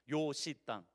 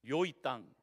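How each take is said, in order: First: It is said in Busan dialect as 'yoshi'. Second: It is said in standard Korean as 'yoi'. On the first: "부산 사투리로는 요시 땅입니다" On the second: "표준어는 요이 땅이고"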